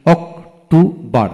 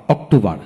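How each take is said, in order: First: October slowly split into three beats; syllable by syllable. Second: Said in the usual way. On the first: Shown as a demonstration. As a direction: pause between each syllable of October. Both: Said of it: "যে ওয়ার্ডে তিনটি syllable থাকে".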